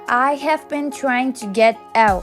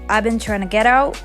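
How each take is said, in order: First: I have is said as two full words. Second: I have is contracted into one syllable.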